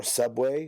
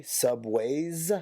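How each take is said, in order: First: Said in the usual way. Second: "Subways" with an extra final S; "Subways" drawn out through the final S; S added at the end. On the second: Shown as a demonstration. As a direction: tack a clear S onto "Subways". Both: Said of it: "They add a S".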